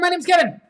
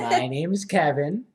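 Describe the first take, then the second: First: It is said very fast. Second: It is said very slowly.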